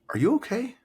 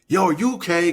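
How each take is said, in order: First: It is asked in a gentle, caring tone. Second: It is asked in a sassy, aggressive tone.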